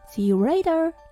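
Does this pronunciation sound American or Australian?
American. The final R in later is pronounced.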